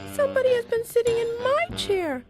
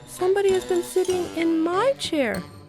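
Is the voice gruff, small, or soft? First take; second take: small; soft. First: It is said in a small, little voice. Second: It is said in a soft, gentle voice.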